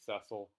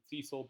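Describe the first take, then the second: First: The name is said the British way. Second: The name is said the American way. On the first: "Brits pronounce it, I think, Cecil" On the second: "Americans pronounce it Cecil"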